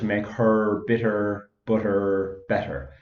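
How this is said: It is spoken in an Irish accent.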